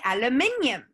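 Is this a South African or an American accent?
South African. It is said in a South African accent.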